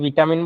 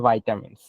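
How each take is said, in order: First: The first vowel sounds like 'ee'. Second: The first vowel sounds like 'eye'. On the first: This is how locals commonly say it. "আমরা যেটা ভিটামিন বলি" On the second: This is the proper English pronunciation. "এটা pronunciation হচ্ছে ভাইটামিনস"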